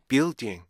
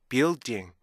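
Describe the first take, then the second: Both takes have the same delivery.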